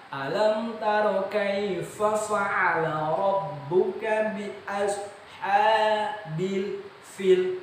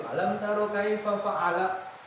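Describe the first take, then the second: First: High, very slow chant, ASHABIL stretched long; correct recitation. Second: ALAM TARO KAIFA FA'ALA chanted high without full elongation; higher, slightly slow reading of kaifa fa'ala, less careful; common careless reading. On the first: Shown as a demonstration. Teacher showing how it should be, correct recitation. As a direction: hold the long vowels, clear f in fa'ala and fil. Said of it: "Padahal seharusnya bukan begitu". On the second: Retold or imitated. Teacher mimicking most people's habit, careless recitation. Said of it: "Kebanyakan gitu".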